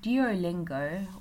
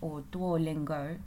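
First: Said with the usual English pronunciation. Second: Said as if read in Chinese pinyin.

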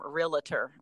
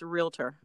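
First: An extra syllable is inserted in the middle. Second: No extra syllable is inserted in the middle. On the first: The speaker calls it wrong. "which is totally incorrect" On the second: The speaker calls it right. "It's realtor"

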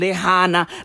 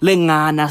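First: The middle consonant is an h sound. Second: The middle consonant is an ng sound. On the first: The speaker calls it wrong. "I mispronounced Lingana. I said Lihana" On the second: The speaker calls it right. "you mispronounced Lingana"

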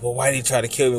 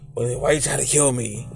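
First: It is said in a plain voice. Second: It is said in Batman's raspy voice.

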